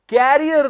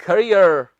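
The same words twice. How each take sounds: First: "कैरियर" with stressed open "kae", like carrier; wrong pronunciation. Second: "करियर" with a short "kuh" start, falling lower; correct pronunciation. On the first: Teacher telling students what not to say, mispronounced. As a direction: say the mistaken "कैरियर", first syllable as in carry. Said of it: "कैरियर नहीं, ये है". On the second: Teacher giving students the right word, carefully pronounced. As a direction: model "करियर" as kuh-REE-er. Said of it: "ये है". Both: Shown as a demonstration.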